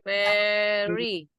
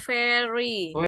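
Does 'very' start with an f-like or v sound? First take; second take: v; f-like. First: It starts with a voiced v sound. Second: It starts with a voiceless f-like sound. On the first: The speaker calls it right. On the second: The speaker calls it wrong.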